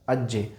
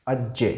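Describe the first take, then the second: No difference in how they are said.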